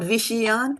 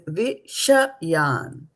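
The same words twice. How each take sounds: First: The middle vowel is dropped: Vish-yan. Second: The middle vowel is pronounced: Vi-sha-yan. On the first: The speaker calls it wrong. "It is not Vishayan" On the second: The speaker calls it right. "It is Vishayan"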